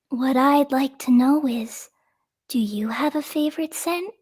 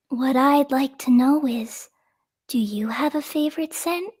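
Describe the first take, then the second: First: It is said in a made-up character voice. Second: It is said in a made-up character voice.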